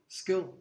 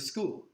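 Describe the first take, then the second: First: The vowel sounds close to the i in skill. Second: The vowel is the standard long oo sound. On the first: "they call it skill" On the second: "they don't say school"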